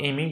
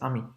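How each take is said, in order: First: It sounds like the English name Amy. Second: It does not sound like the English name Amy. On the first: The speaker calls it wrong. "It's not Amy" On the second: The speaker calls it right. "It's Ami"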